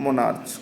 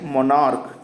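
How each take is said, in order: First: The word ends with a 'ch' sound. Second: The word ends with a 'k' sound. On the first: The speaker calls it wrong. "इसे हम मोनार्च नहीं पढ़ेंगे" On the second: The speaker calls it right. "क्या पढ़ेंगे"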